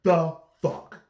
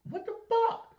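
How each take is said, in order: First: Loud, higher the fuck; repeat on request. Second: High, loud squealed what the fuck; staged shocked squeal; shocked outburst. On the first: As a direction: punch it out again on request. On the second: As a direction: shriek it in disbelief. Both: Pretend. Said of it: "Gotta say it one more time".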